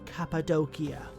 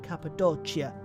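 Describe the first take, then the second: First: It uses a restored classical Latin pronunciation. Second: It uses an Italian-like ecclesiastical pronunciation. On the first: "using the restored classical pronunciation of Latin" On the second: "more ecclesiastical, which is generally very Italian-like pronunciation"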